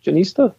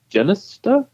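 First: Janista said juh-NEE-stuh, high and questioning; long "ee" in Janista, rising like a question; alternative pronunciation. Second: Janista said JEN-iss-tuh, high and questioning; alternative pronunciation. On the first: Co-host unsure of the name, Janista as a questioning juh-NEE-stuh. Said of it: "Who knows?". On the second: Co-host tries out rival pronunciations, Janista as a questioning JEN-iss-tuh. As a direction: hit the first syllable of Janista, rising like a question. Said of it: "I've heard it pronounced six different ways". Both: Shown as a demonstration.

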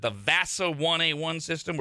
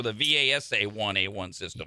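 First: "vasa" said as one word, rhyming with nasa. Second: "V A S A" spelled out letter by letter; "V A S A" read as four initials; VASA as initials. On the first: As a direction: pronounce "vasa" like a word, not letter by letter. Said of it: "is this pronounced like nasa". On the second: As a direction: say each letter of "V A S A" separately. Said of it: "supposed to say the initials". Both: Shown as a demonstration.

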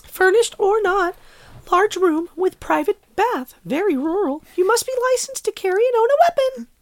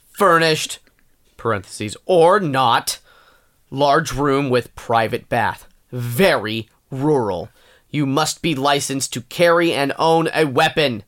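First: Very high, squeaky, gleeful listing read; way up in pitch, sweetly happy and measured. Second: Slow, emphatic angry listing read; stern, deliberate anger on each phrase. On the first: Rereads the rental ad happy for co-host, happy. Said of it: "I'll try it happy". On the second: Reads a room-rental ad angry at co-host's request, angry. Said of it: "I want you to read this angry". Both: Acted.

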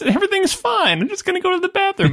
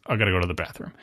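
First: Much higher, sing-song and easygoing; breezy and friendly, nothing to worry about; breezy reassurance. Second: Low, much softer, flat statement with no asking; clipped and low, not asking permission; curt announcement. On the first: Michael should be putting the men at ease, breezy and high. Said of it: "in great Goodfellas style of being like". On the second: Michael tells the men he's leaving, low and curt. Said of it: "He does not ask for permission". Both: Retold or imitated.

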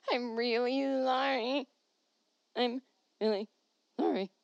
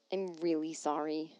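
First: Comic pleading, higher and stretched; silly whiny apology. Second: Said in the usual way. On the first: Pretend. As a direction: drag out a babyish sorry.

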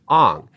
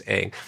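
First: "Ong" with an open "ah" vowel; film's mispronunciation. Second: "Aang" with the A of "bang"; show's pronunciation. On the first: Host showing how the film changed the name, mispronounced "Ong" with an "ah" vowel. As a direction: say "Ong" like the end of "song". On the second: Host explaining the name in the show, original pronunciation of "Aang" rhyming with "bang". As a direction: say "Aang" to rhyme with "hang". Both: Shown as a demonstration. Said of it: "decided to pronounce it Ong".

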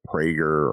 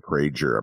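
First: "Prager" with a hard g, PRAY-gur. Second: "Prager" with a soft g, PRAY-jur. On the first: Unsure of the name, offers "Prager" with a hard g. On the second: Offering another guess at the name, "Prager" with a soft g. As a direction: say "Prager" with a j sound. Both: Shown as a demonstration. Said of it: "Prager or Prager, or Prager".

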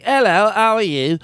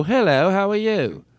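First: High, exaggerated British dialect; very strong British accent. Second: British-sounding stab at South African, higher and drawn out; slow, high put-on South African hello; attempted South African accent. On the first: Shown as a demonstration. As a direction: lay the British accent on thick. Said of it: "There's a very strong one that's like". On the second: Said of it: "that's the accent I can do".

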